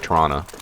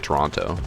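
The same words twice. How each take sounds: First: The second T is slurred over and dropped. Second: The second T is clearly pronounced. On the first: "They kind of like slur over the, the second T" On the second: "I usually say Toronto"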